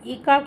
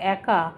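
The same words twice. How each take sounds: First: The first vowel is a closed e sound. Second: The first vowel is an open ae sound. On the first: The speaker calls it wrong. "একা কিন্তু হয় না" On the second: The speaker calls it right. "এ কয়াকার একা"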